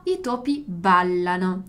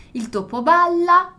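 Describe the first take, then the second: First: I topi ballano said lower and slowly; i topi ballano, calm contrasting plural; plural contrasted. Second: Il topo balla said higher and louder, slowly; Il topo balla, punched, against the plural; singular stressed. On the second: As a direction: lean on balla to mark the singular. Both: Shown as a demonstration. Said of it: "il plurale di il topo".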